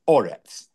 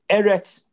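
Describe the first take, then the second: First: The first vowel is an 'o' sound. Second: The first vowel is an 'e' sound. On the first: This is the form used at a major pause in the verse. "instead it's pronounced Oretz" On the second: This is the ordinary form of the word. "you have a word like Eretz, which sometimes is with two segals"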